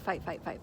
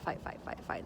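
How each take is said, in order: First: Said in the usual way. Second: Trails off into a whisper; fading whisper. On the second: Shown as a demonstration. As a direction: let the repeated fight die away to breath. Repeated fight, fading to whisper.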